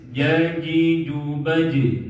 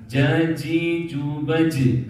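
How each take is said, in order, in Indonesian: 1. Bunyi j diucapkan tanpa desis. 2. Bunyi j diucapkan dengan desis. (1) "gak ada desis"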